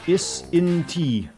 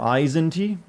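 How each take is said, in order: First: The name begins with a short 'iss' sound. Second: The name begins with a long 'eyes' sound.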